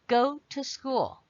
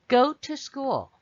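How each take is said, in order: Both takes have the same delivery.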